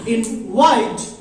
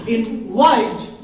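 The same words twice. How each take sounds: First: The stress is on the second syllable. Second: The same.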